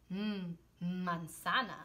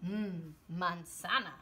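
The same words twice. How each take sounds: First: "mm" hummed long before "manzana"; stress on the M. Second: Said in the usual way. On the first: Shown as a demonstration. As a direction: stretch the "mm", then say "manzana" slowly. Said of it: "this one also can be mm".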